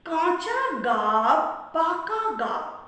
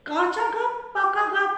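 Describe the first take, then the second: First: The phrase is said at a slow pace. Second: The phrase is said at a quicker pace. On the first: "প্রথমে ধীর লয়ে" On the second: "লয় বাড়াই"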